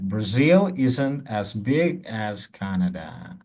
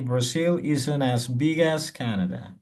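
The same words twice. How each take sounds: First: The sentence is spoken at a normal pace. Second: The sentence is spoken at a fast pace.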